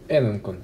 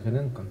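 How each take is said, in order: First: The word begins with a vowel. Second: The word begins with a g sound. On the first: The speaker calls it right. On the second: The speaker calls it wrong. "только не гененкон"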